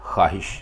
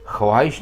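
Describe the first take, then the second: First: No w sound is heard after the kh. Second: A w sound is heard after the kh. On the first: The speaker calls it right. "बोलते वक्त हम इसको ख्वाहिश बोलेंगे" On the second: The speaker calls it wrong. "ख्वाहिश नहीं"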